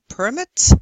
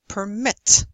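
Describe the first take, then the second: First: The stress is on the first syllable. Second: The stress is on the second syllable. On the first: It is a noun. "Nouns often have stress on the first syllable" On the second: It is a verb. "verbs often on the second"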